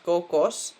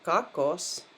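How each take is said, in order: First: The first vowel sounds like a full o. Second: The first vowel sounds like an a. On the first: The speaker calls it wrong. "not kokos" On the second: The speaker calls it right. "but kakos"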